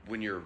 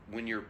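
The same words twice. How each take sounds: The two takes are said the same way.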